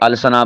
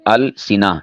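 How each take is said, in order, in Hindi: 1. 's' के बाद का स्वर 'a' है। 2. 's' के बाद का स्वर 'i' है। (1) "इसे अलसना बोल देते हैं, ये गलत है" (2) "सीन के नीचे कसरा है"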